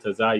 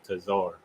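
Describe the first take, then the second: First: The word ends on a vowel with no R. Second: The word ends with an added R sound. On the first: The speaker calls it right. "instead of saying Tazai" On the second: The speaker calls it wrong. "you put a R at the end of Tazai"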